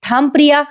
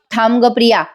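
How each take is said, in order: First: Sharp raised call, pitched high; mild shout. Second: Said in the usual way. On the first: A narrator's reading. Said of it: "Sayali मोठ्याने ओरडते". (मोठ्याने हाक मारत थांबवणे) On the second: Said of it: "Sayali म्हणते".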